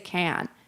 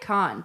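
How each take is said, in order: First: It is said the common American way. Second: It is said the speaker's own usual way. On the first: "a lot of Americans say Cannes" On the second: "I say Cannes"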